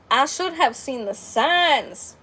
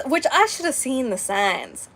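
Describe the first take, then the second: First: Slow, "signs" drawn out and falling; rueful emphasis on signs. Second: Said in the usual way. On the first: Shown as a demonstration. Admitting to viewers she missed it, slow rueful emphasis on "signs". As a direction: dwell on the regret.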